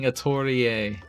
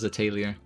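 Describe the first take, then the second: First: The name is said like Japanese 'atorie'. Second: The name is said with English-style sounds. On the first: It matches the original Japanese pronunciation. The speaker calls it right. "it sounds wrong saying Atorie. But it's that's the right pronunciation" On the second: It is the version most English speakers habitually use. The speaker calls it wrong. "everybody else says Atelier"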